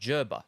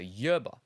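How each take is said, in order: First: The word begins with a J sound. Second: The word begins with a Y sound. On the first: "pronounce it with a J sound. Okay, so like germ" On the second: "give it a Y sound, such as yellow"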